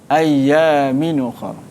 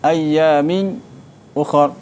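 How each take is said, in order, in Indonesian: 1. Kedua kata bersambung tanpa jeda. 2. Ada jeda diam singkat sebelum ukhra. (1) "dia baca dengan naqal" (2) "dia baca dengan saktah"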